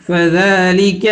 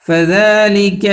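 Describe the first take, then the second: No difference in how they are said.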